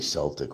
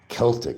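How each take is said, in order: First: The word begins with a soft S sound. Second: The word begins with a hard K sound. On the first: This is how the speaker says it. "I say Celtic with the C" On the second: This is how people in those countries say it. "is how they pronounce it"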